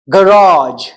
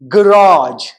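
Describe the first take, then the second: First: It is said with an American accent. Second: It is said with an American accent.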